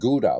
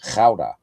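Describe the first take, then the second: First: The word is said the English way. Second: The word is said the Dutch way. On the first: The speaker calls it wrong. "It's not Gouda, by the way, that cheese" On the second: The speaker calls it right. "It's Gouda"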